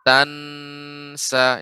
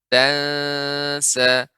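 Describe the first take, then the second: First: The n is clear, with tongue touching the palate. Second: The n is hidden and nasal, tongue not touching. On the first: The speaker calls it wrong. "bukan tansa, ini kurang tepat" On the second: The speaker calls it right. "ikhfa ya, ucapan dia pengucapannya samar. Lidah berada di tengah-tengah, lidah tidak nempel ke langit-langit"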